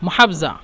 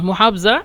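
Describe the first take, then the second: No difference in how they are said.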